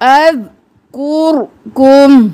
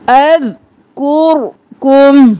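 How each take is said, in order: The two takes are said the same way.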